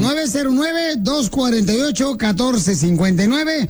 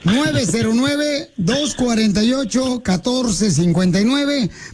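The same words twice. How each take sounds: First: The number is said at a fast pace. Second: The number is said at a slow pace.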